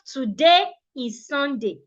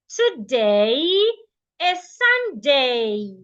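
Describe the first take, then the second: First: The A vowels are plain, steady sounds. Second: The A vowels glide from one sound to another. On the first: The speaker calls it wrong. "Not today is Sunday" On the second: The speaker calls it right. "You want to change it from a to a"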